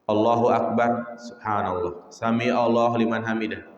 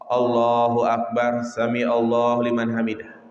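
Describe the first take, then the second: First: It is said slowly, with a pause. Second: It is said quickly, without pausing.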